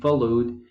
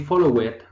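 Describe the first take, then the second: First: The ending is a single d sound. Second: The ending is a separate extra 'id' syllable. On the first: The speaker calls it right. "we say" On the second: The speaker calls it wrong. "we don't say"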